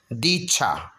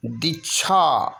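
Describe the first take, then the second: First: दीक्षा lower with a held dee; long ee. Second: दीक्षा with brief di and long chhaa; short i. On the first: Teacher giving the correction, दीक्षा with long dee. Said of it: "बड़ी की मात्रा". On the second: Teacher showing the error, दीक्षा with short di. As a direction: clip di in दीक्षा. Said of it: "छोटी दी की मात्रा नहीं". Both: Shown as a demonstration.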